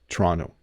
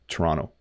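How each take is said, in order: First: The second t is softened or dropped. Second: The same.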